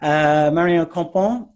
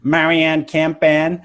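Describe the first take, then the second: First: The name is said with a French pronunciation. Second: The name is said with an American pronunciation. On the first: "I do actually speak a bit of French, so I want to try" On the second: "I might as well say it in the American way"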